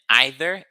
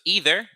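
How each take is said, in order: First: It is said in a British accent. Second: It is said in an American accent.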